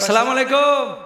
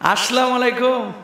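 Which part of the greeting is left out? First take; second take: opening syllable; linking vowel. First: The opening syllable of the greeting is dropped. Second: The linking vowel before alaikum is dropped. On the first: "এখনো বিশুদ্ধ সালামটাও শিখে নাই" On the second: "এখনো বিশুদ্ধ সালামটাও শিখে নাই"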